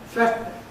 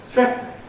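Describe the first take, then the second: The two takes are said the same way.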